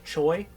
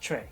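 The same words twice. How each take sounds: First: It is said the English way, like the spelling. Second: It is said with the Korean pronunciation. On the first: The speaker calls it wrong. "a lot of people will say Choi" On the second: The speaker calls it right. "in Korean it's pronounced Choi"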